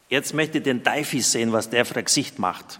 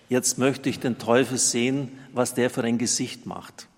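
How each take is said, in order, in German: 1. Er wird in einem regionalen Dialekt gesprochen. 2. Er wird in Standarddeutsch gesprochen.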